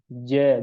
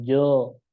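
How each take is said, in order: First: The vowel is light and thin, like a. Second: The vowel is heavy and rounded, like o. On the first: The speaker calls it right. "alif dibaca tipis apabila alif sebelumnya istifal" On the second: The speaker calls it wrong. "bukan jo"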